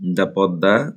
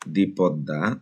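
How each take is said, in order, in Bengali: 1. এই উপপদটি হ্রস্ব 'uh' স্বরে উচ্চারিত হয়। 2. এই উপপদটি দীর্ঘ 'ee' স্বরে উচ্চারিত হয়। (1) "দা" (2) "দি"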